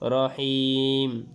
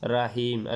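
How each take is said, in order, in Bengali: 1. প্রথম অক্ষরে একটি গোলাকার 'ro' স্বরধ্বনি আছে। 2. প্রথম অক্ষরে একটি খোলা 'ra' স্বরধ্বনি আছে। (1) "আসলে শব্দটা রাহিম নয়, রহিম" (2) "রাহিম বলা যাবে না, আমরা অনেকে বলি রাহিম"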